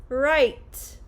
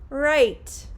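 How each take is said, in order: Both takes have the same delivery.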